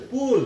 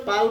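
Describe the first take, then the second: First: "পুল" with a rounded oo vowel; correct reading. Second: "পাল" with an open aa vowel; mistaken reading. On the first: Teacher shows learners the exception word, "পুল" with oo. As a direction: say "পুল" as English pull, with oo. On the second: Teacher warns learners against this reading, "পাল" with aa. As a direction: misread pull as "পাল", with aa. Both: Shown as a demonstration. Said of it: "এইটো কিন্তু পাল বুলি নহয়".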